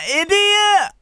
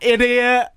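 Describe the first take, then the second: First: It is said in a Scottish accent. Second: It is said in the speaker's ordinary accent.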